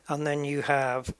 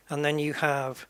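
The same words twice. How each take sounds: The two takes are said the same way.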